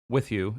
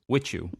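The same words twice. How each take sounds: First: The two words are said separately and distinctly. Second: The two words are run together into one. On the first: "It's not with you" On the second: "we turn one word, two words into one"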